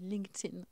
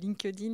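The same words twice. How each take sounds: First: It is said with an American accent. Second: It is said with a French accent.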